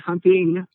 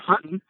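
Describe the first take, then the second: First: The final g sound is clearly pronounced. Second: The final g sound is dropped. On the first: This is how others say it. "we don't say hunting" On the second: This is how people from Arkansas say it. "We're hunting. ... You dropped the G"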